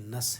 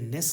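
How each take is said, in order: First: The suffix has a short reduced 'uh' vowel. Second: The suffix has a clear 'eh' vowel. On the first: The speaker calls it right. "बल्कि ये नस है" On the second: The speaker calls it wrong. "ये नेस नहीं है"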